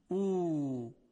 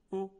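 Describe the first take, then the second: First: The vowel is drawn out long. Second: The vowel is cut short.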